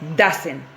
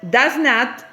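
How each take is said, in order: First: It is said as one contracted word. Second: It is said as two full words. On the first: "aquí diría, diría doesn't" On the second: "aquí diría does not"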